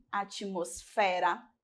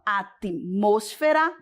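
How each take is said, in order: First: Atmosfera stressed on FE, slow and soft; Portuguese stress. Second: Atmósfera stressed on MÓS; Spanish stress. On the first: Teacher models Portuguese atmosfera for students. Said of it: "no português". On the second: Teacher models Spanish atmósfera for students. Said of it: "no espanhol". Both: Shown as a demonstration.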